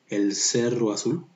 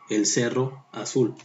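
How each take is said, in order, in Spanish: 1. Las dos vocales se unen en una sola sílaba. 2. Las dos vocales se pronuncian como sílabas separadas. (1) "dices el cerro azul" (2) "no dices el cerro azul"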